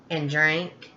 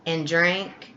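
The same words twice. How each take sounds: The two takes are said the same way.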